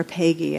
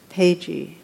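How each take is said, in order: First: "Pagey" with a hard g, as in geese; "Pagey" with a g sound, not j; corrected pronunciation. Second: "Pagey" with a j sound in the middle; first pronunciation attempt. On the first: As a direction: say "Pagey" like pay-GHEE. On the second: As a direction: say "Pagey" like PAY-jee. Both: Shown as a demonstration. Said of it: "I think is the way it's pronounced".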